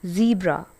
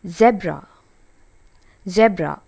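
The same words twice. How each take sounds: First: ZEBRA said "ZEE-bra"; long ee in ZEBRA; American pronunciation. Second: ZEBRA said "ZEB-ra"; short e in ZEBRA; British pronunciation. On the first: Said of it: "Zebra is American pronunciation". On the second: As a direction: say "zebb-ra". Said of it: "Zebra is a British pronunciation". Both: Shown as a demonstration.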